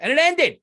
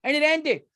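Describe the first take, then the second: First: Higher and louder, outraged. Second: Outraged repeat. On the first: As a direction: blurt it out, indignant. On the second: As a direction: repeat it, still indignant. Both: Real, not acted.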